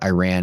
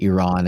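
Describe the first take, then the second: First: Iran is said with a Texan pronunciation. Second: Iran is said with a standard, non-Texan pronunciation. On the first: The speaker calls it wrong. "I call it Iran ... I should probably not be so Texan about it" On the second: The speaker calls it right. "instead of Iran"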